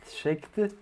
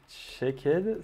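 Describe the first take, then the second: First: "checked" said the English way, one syllable, ending on a clipped t; English accent. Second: Said in the usual way. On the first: Shown as a demonstration. Coder repeating his state name, in a clumsy English accent. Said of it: "Désolé pour mon accent anglais abominable". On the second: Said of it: "Désolé pour mon accent anglais".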